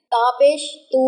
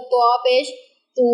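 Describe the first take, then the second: First: तू with the light, thin t of Arabic ت. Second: त्वा and तू with the emphatic, rounded t of ط; heavy Arabic taa. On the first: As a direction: say ता and तू with a plain, unemphatic t. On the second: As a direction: thicken the t in त्वा and तू. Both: Shown as a demonstration. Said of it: "दोनों के sound में फ़र्क है".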